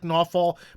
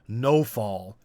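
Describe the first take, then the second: First: The name is said the way it is spelled. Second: The name sounds like the words 'no fall'. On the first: "it's spelled like Nawfal" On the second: "the Russians say it weird. They say it more like No Fall"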